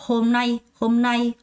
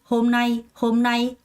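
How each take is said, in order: Both takes have the same delivery.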